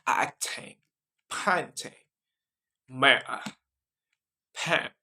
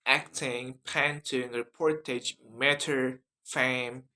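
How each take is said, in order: First: British accent word list with broad A. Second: American accent word list with front A. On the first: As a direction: read the words one by one in a British accent. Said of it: "that is British accent". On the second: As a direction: read the words briskly in an American accent. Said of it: "in American accent". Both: Shown as a demonstration.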